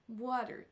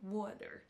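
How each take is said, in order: First: The stress is on the first syllable. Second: The stress is on the second syllable. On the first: The speaker calls it right. "c'est sur la première syllabe qu'on va accentuer" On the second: The speaker calls it wrong. "et non"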